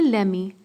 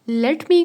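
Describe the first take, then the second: First: The words blend into one short word. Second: Both words are said fully and separately. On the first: "लेमी थोड़ा सा आसान हो जाता है" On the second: "लेट मी थोड़ा टंग twist करके बोलना पड़ता है"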